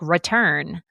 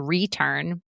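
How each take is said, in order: First: The first vowel is reduced to a schwa. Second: The first vowel is a full 'ree' sound. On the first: "but it can also be schwad" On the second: "unless you say return"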